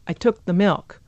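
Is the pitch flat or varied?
varied. The pitch moves and some syllables are reduced.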